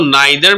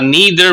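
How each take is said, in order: First: The first vowel sounds like 'eye'. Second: The first vowel sounds like 'ee'. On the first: "इसको नाइदर भी पढ़ सकते हैं" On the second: "और नीदर भी पढ़ सकते हैं"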